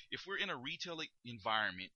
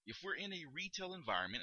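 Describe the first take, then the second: First: Said in the usual way. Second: Upbeat rising greeting tune, higher; friendly shop greeting with a lift at the end; rising tonality. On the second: Shown as a demonstration. Clerk greeting a customer, friendly rising tone. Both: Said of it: "use that rising tonality".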